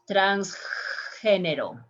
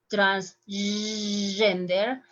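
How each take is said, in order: First: Slow Spanish transgénero; Spanish pronunciation. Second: Transgender said the English way, slow; English pronunciation. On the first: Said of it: "In Spanish". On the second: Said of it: "How is in English?". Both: Shown as a demonstration.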